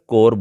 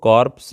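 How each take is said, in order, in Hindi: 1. इस शब्द के अंत में p या s की कोई ध्वनि नहीं है। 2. इस शब्द के अंत में सुनाई देने वाली p और s ध्वनियाँ हैं। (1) "सिर्फ कोर बोलेंगे। इसमें पी और एस दोनों साइलेंट हैं।" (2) "इसको कॉर्प्स नहीं बोलेंगे"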